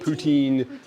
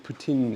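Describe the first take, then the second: First: It is said with an anglicized pronunciation. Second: It is said with a Quebec French pronunciation. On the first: This is how outsiders say it. The speaker calls it wrong. "We call it poutine because we don't know how to say it properly" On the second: This is how locals say it. The speaker calls it right. "it's actually poutine is how they say it"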